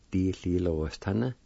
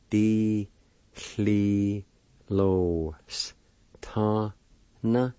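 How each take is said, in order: First: Said in the usual way. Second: "Di-hli-lo-s-ta-na" very slowly, each syllable held and separate. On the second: Shown as a demonstration. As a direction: stretch "Di-hli-lo-s-ta-na" out with a pause after each syllable. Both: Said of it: "It's pronounced like this".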